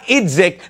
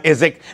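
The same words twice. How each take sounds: First: The name is said with a D sound. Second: The name is said without a D sound. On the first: The speaker calls it wrong. "Not Idzik" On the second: The speaker calls it right. "The D in his name is silent"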